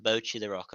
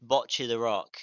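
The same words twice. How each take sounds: First: "Bochi" as BOH-chee with long o; careful long-o "Bochi the Rock"; long-o pronunciation. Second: "Bocce" as BOTCH-ee with short o; low-pitched, careful short-o "Bocce the Rock"; short-o pronunciation. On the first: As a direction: round the o in "Bochi". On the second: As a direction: clip the o in "Bocce". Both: Shown as a demonstration. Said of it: "are very different".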